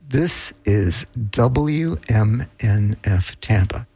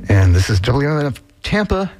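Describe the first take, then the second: First: It is said slowly, each letter clear. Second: It is said quickly, running together.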